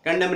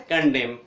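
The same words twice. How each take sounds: First: कंडेम wrongly said as "kandamn"; कंडेम with an n after the m; sounded N. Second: कंडेम ending cleanly on m; silent N. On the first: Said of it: "कंडेम नहीं बोलते". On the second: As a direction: say कंडेम with no n at the end. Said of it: "एन silent". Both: Shown as a demonstration.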